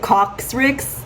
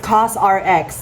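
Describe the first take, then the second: First: The name is said as one word, 'cox-rix'. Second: The name ends with the spelled letters R-X. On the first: The speaker calls it wrong. "I pronounced it Coxrix" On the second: The speaker calls it right. "It's it's CosRX, not Coxrix"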